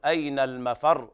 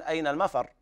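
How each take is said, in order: First: المفر ending on a held, doubled r; doubled final ra. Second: المفر cut short on a single light r; أين المفر with no doubling of the r; undoubled final ra. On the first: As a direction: stress the r closing المفر as "mafarr". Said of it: "الراء مشددة لا بد من تضعيفها". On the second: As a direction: end المفر quickly as "mafar". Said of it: "ولا يقول الإنسان". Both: Shown as a demonstration.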